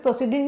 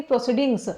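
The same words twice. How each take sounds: First: Said in the usual way. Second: "प्रोसीडिंग्स" closed with an s; plural ending sounded. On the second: Shown as a demonstration. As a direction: give "प्रोसीडिंग्स" as the correction, final s audible. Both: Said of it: "प्रोसीडिंग नहीं".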